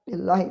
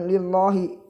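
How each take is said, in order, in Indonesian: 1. Vokal setelah l terdengar seperti a. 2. Vokal setelah l terdengar seperti o. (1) "membacanya lillahi ... menggunakan huruf A" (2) "bukan lillahi ... bukan O"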